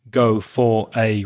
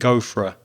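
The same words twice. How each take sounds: First: Every word gets equal stress and full vowels. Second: 'For a' are weak and almost disappear. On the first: The speaker calls it wrong. "I'm not giving equal stress to every word. I'm not saying go for a run" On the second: The speaker calls it right. "I'm saying go for a, go for a. ... those weak forms almost disappearing"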